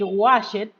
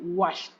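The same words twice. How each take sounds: First: The ending is an extra 'ed' syllable. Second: The ending is a plain T sound. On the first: The speaker calls it wrong. "No voy a decir" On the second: The speaker calls it right. "voy a decir"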